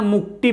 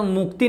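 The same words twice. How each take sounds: First: मुक्ति said as "muk-Ti" with retroflex T; hard retroflex T in मुक्ति, like Metcalfe's; altered mnemonic pronunciation. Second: Said in the usual way. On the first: Shown as a demonstration. Teacher gives students a memory trick, मुक्ति with retroflex T. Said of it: "मुक्ति पढ़ना". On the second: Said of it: "मुक्ति नहीं पढ़ना, मुक्ति पढ़ना".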